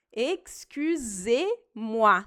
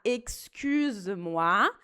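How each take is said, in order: First: EXCUSEZ-MOI bem lento, "ex-cü-zê-muá"; E bem pronunciado. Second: EXCUSE-MOI lento, "excüz-muá" sem "zê". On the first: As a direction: break EXCUSEZ-MOI into slow syllables with clear "zê". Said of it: "é importante falar". ("excusez-moi" devagar, com E nítido) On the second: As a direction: drop the E in a slow EXCUSE-MOI. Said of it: "Se eu falar". ("excuse-moi" devagar, forma de tu) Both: Shown as a demonstration.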